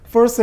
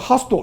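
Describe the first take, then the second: First: It is said with an English-style pronunciation. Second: It is said with a Japanese-style pronunciation.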